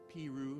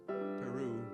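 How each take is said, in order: First: It is said the local Midwestern way. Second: It is said the usual standard way. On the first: It names the Indiana town. "We have Piru" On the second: It names the South American country. "not Peru"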